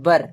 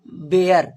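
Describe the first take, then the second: First: The vowel sounds like 'ur', as in fur. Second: The vowel sounds like 'air', as in bear. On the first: The speaker calls it right. "इसको उच्चारण हम लोग करेंगे W E R E बर" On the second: The speaker calls it wrong. "पहले इसे बेयर, ... बेयर नहीं होता है"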